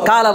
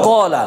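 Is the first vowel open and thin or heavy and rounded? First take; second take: open thin; heavy rounded. First: The first vowel is open and thin. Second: The first vowel is heavy and rounded. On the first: The speaker calls it wrong. "কালা বলি না" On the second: The speaker calls it right. "কি বলি? কলা।"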